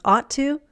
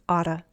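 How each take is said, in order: First: Both words are pronounced fully and separately. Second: The words blend into one reduced word.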